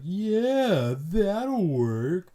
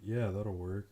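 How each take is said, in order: First: It is said with exaggerated, overly animated sarcasm. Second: It is said with plain, understated sarcasm.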